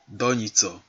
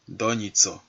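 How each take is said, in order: No difference in how they are said.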